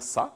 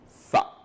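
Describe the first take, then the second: First: The consonant is a plain hissing s. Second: The consonant is a th with tongue between teeth. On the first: The speaker calls it wrong. "on ne va pas dire ça" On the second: The speaker calls it right. "mettre la langue entre les dents"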